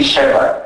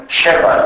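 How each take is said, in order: First: Said in the usual way. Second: "σέβα" as sheva, thick sh; thick pronunciation. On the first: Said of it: "αντί σέβα". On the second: Shown as a demonstration. Lecturer showing thick dialect s, "σέβα" with sh. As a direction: make the s of "σέβα" a sh. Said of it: "Ακούγεται επίσης η παχιά προφορά".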